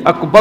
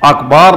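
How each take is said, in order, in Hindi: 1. b के बाद का स्वर छोटा रखा जाता है। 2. b के बाद का स्वर लंबा खींचा जाता है। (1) "अकबर होना चाहिए" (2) "अकबार नहीं होना चाहिए"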